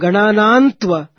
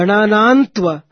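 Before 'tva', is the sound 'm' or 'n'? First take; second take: n; n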